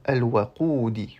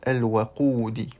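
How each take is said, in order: The two takes are said the same way.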